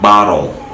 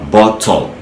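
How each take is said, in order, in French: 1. Il est prononcé avec un accent américain. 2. Il est prononcé avec un accent britannique. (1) "mais l'américain dira" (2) "le britannique ici dira"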